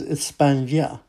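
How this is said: The word is said with a lisp. This is how it is said in Spain. "the way they say it is España. There's actually a lisp"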